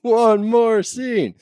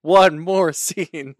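First: Slow, much higher and louder echo; hammed-up high echo; high mocking echo. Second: Slow, louder drawn-out call; louder slow sign-off; drawn-out announcement. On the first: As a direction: echo the call higher, hamming it up. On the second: Pretend. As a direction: stretch it like an announcer.

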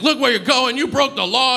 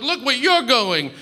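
First: High-pitched mock scream from an angry cyclist; retold angry yell. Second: High-pitched retort, leaning hard on "you're"; mock yell back, stress on YOU'RE. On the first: Cyclist hit by a cab door screams at the passenger, mock yell. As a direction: imitate him yelling, pitched right up but not full volume. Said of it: "he started screaming at me". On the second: Passenger yells back at the cyclist, mock yell stressing "you're". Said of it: "we're just sort of yelling".

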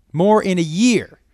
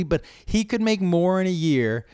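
First: "more in a year" said higher, louder and slower; slow, loud stress on "more"; emphatic repeat. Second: Said in the usual way. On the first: Real, not acted. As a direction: hammer "more in a year" home.

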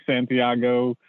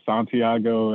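First: "Santiago" with a flat "San", as in "sand"; short flat A opening "Santiago"; speaker's own pronunciation. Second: "Santiago" with a broad "Sahn" at the start; alternative pronunciation. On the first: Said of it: "I mean, I say Santiago". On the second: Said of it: "I've heard Santiago". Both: Shown as a demonstration.

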